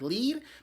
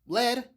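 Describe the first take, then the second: First: The word does not rhyme with 'red'. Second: The word rhymes with 'red'. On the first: It names the verb for going first. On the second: It names the heavy metal.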